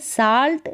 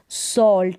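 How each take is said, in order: First: The vowel is an open unrounded 'ah' sound. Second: The vowel is a rounded 'aw' sound. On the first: The speaker calls it wrong. "आ करके नहीं है ... साल्ट नहीं है" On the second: The speaker calls it right. "उच्चारण औ करके है ... सॉल्ट है"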